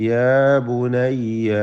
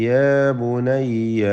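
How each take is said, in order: No difference in how they are said.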